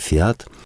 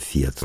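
First: The stress is on the second syllable. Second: The stress is on the first syllable. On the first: This is the Russian way of saying it. "но можно и по-русски" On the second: This is the Italian way of saying it. "ударение на первый слог в итальянском"

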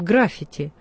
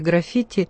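First: The stress is on the first syllable. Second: The stress is on the second syllable. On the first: The speaker calls it wrong. "нередко неправильно ставят ударение, говорят" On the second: The speaker calls it right. "ударение здесь на втором слоге"

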